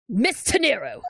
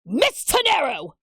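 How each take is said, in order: First: The name is said in a normal voice. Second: The name is yelled loudly.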